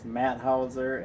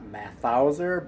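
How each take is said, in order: First: The middle consonant is a plain t sound. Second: The middle consonant is a th sound. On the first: The speaker calls it right. "I think the H is silent" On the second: The speaker calls it wrong.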